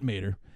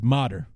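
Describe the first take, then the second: First: The first vowel sounds like 'ay' in day. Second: The first vowel sounds like 'ah' in father. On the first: The speaker calls it wrong. "I was mispronouncing his name" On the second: The speaker calls it right. "his name is Motter"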